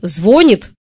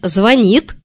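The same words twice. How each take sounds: First: The stress is on the first syllable. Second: The stress is on the second syllable. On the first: The speaker calls it right. "кто всю жизнь говорил «звонит», они окажутся правы" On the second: The speaker calls it wrong. "которые говорят «звонит», будут считаться неучами"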